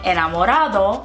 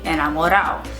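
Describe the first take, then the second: First: The D sound near the end is pronounced. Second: The D sound near the end is dropped. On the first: "instead of saying enamorado" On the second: "we would say enamorado"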